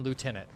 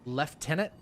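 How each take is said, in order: First: The word is said without an F sound. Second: The word is said with an F sound. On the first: "I know you mean lieutenant" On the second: "There's no F in this"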